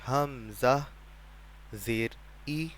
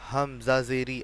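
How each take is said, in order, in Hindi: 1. हिस्से धीरे-धीरे बोले जाते हैं, बीच में गैप के साथ। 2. हिस्से जल्दी-जल्दी, बिना गैप के एक साथ बोले जाते हैं। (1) "बल्कि आराम आराम से" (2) "ऐसे नहीं"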